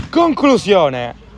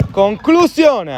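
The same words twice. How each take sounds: First: Drawn-out loud shot cry; excited shot call. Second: High, slow, loud shot cry; excited shot call. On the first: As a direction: stretch it out as the ball flies. (grido di tiro allungato) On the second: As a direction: let the word soar, thrilled. (grido di tiro acuto e allungato) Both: Real, not acted.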